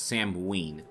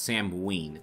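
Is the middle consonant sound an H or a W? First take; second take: W; W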